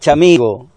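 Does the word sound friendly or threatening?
friendly. It is said in a warm, friendly tone. It is a friendly greeting. "fíjate qué distinto suena si yo te digo, hola, chamigo"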